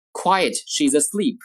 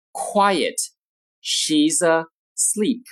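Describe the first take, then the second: First: Said in the usual way. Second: Slow, spaced-out words with pauses; slow model reading. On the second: Shown as a demonstration. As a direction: present each word separately for learners. Model sentence, slow take first.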